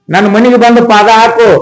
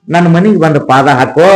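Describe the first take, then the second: First: Fervent plea. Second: Said in the usual way. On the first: Acted. Merchant pleading with the sage to visit his home, raised imploring voice. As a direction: beg again, raising the voice.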